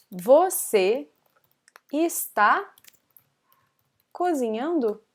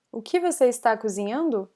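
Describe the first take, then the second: First: Word by word. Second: Said in the usual way. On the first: Shown as a demonstration. Teacher translating a student's question, word by word. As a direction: separate words with long pauses.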